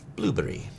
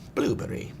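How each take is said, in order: First: It is said with a British accent. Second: It is said with a British accent.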